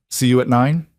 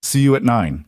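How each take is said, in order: First: "See you at nine?" with a rising tune on "nine"; question tune. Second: "See you at nine." with a falling tune and weight on "you"; statement tune. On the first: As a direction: ask "See you at nine?", lifting "nine" upward at the end. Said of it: "text message posed as a question". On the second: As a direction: settle "See you at nine." downward as a firm reply. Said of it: "He texted back". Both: A narrator's reading.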